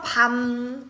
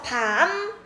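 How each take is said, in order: First: The word is said on a low, level pitch. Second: The pitch starts low and rises to high. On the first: "이렇게 낮게 읽고" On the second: "낮았다가 높아지는 소리"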